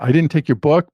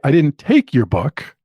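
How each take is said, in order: First: The stress falls on the word book. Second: The stress falls on the word take. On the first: Something else was taken. "I took something else, but it wasn't your book" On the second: It was borrowed, not taken. "it could mean I borrowed it, but I didn't take it"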